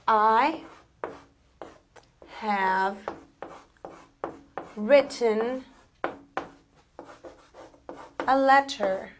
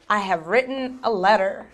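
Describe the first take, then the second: First: The t sounds are clearly pronounced. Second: The t sounds are dropped.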